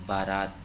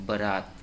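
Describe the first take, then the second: No difference in how they are said.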